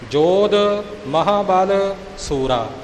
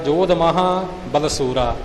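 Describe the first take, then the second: First: The last two words are kept clearly separate. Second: The last two words are quickly run together. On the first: The speaker calls it right. "ਇਹ ਉਚਾਰਨ ਦਾ ਖਿਆਲ ਰੱਖਣਾ" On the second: The speaker calls it wrong. "ਤੇਜ਼ ਚਾਲ ਚੱਲਦਿਆਂ ਜੋਧ ਮਹਾਬਲਸੂਰਾ ਇਉਂ ਕਹਿ ਜਾਂਦੇ ਨੇ, ਜੋ ਕਿ ਗਲਤ ਹੋਵੇਗਾ"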